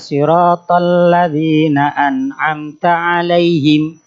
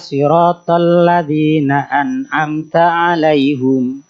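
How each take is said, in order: First: The last word ends with the syllable 'him'. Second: The last word ends with the syllable 'hum'. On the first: This is the common reading. "kalau kita membacanya" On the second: This is another reciter's reading. "Membaca dhammah pada huruf ha"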